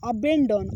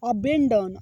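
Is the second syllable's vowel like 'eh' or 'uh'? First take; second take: eh; eh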